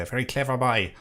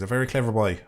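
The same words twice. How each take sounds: First: Light imitation of his accent, "boy" as "bye"; Blind Boy. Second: Said in the usual way. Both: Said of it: "as he would say".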